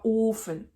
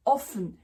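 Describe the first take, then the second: First: "ofen" with a drawn-out closed o; long O. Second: "offen" with a quick open o; short O. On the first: Teacher giving the contrasting word, long o in "ofen". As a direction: stretch the o in "ofen". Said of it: "et pas ofen". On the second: Teacher contrasting with the oven, short o in "offen". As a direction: keep the o brief in "offen". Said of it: "qui va être court". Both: Shown as a demonstration.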